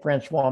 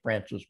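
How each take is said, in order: First: The name is said with a French pronunciation. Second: The name is said with an English pronunciation. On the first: This is the original name of the mountains. "They're actually the St. Francois Mountains" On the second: This is how local people say the name. "but we call them the St. Francis Mountains"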